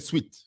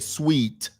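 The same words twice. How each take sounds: First: The word is said with a Zambian pronunciation. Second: The word is said with a non-Zambian pronunciation. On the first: "In Zambia, we say sweet" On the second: "We don't say sweet"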